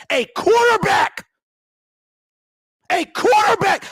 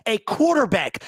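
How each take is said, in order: First: Furious shout. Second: Said in the usual way. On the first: Real, not acted. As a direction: explode on quarterback, stretching it out. Builds to a yell on repeat.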